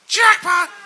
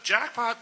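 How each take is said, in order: First: The word is yelled loudly with raised pitch. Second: The word is said at normal, quiet volume. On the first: The speaker calls it right. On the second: The speaker calls it wrong.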